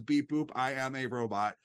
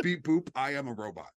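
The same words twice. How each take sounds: First: Even machine gun syllables; robot voice. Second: Even machine gun syllables, second take; robot voice. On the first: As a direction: chop it into flat robot beeps. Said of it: "a really bad robot costume and says". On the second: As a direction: beep boop like a cheap TV robot. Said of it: "that is this". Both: Retold or imitated.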